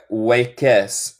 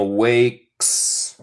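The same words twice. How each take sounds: First: "wakes" wrongly said in two syllables, "way-kes"; wrong extra vowel. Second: "wakes" in one drawn-out syllable, ending straight in "ks"; stretched "waaayks", one syllable; no E sound. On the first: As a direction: put an E sound before the final S of "wakes". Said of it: "No se dice wa-, wakes". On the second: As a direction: say "wakes" slowly with no vowel between K and S. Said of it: "No hay E en la pronunciación". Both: Shown as a demonstration.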